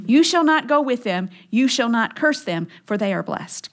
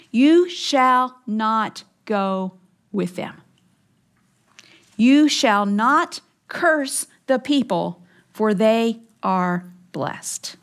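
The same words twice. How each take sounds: First: Much quicker, running straight through; firm recap, softening at the end; brisk restated command. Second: Very slow, each word set apart; measured command with weighty pauses; solemn divine command. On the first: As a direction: restate God's order matter-of-factly, without lingering. Restating God's command to make it clear. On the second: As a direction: pronounce it as God's decree, slowly and deliberately. Voicing God's command from scripture. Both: Acted.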